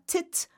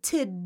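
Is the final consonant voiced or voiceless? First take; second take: voiceless; voiced. First: The syllable ends in a voiceless t sound. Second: The syllable ends in a voiced d sound. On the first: The speaker calls it wrong. "Not tit" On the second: The speaker calls it right. "but tid, ... get the last part voiced"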